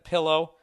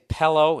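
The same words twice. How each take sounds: First: The first vowel sounds like 'ih', pillow. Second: The first vowel sounds like 'eh', pellow. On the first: The speaker calls it right. "instead of pillow" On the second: The speaker calls it wrong. "I used to say pillow ... P E L L O"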